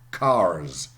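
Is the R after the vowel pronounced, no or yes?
yes. It is said with an R before the S.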